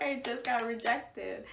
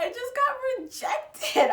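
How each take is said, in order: First: Said in the usual way. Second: Mock devastated. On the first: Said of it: "I was like". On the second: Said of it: "And I was like".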